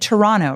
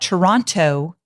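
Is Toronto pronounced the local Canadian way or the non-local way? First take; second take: local; non-local. First: Toronto is pronounced the local Canadian way. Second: Toronto is pronounced the non-local way. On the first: The speaker sounds like a local. The speaker calls it right. "Notice I said Toronto, right?" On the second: The speaker sounds like an outsider. The speaker calls it wrong. "Toronto is not how you say it"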